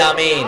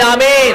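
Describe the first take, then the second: First: It is said softly. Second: It is shouted loudly.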